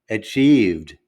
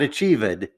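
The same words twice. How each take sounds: First: The V sound runs straight into the D. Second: The D is set apart from the V. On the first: The speaker calls it right. "I have to take that V sound and merge it with the D" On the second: The speaker calls it wrong.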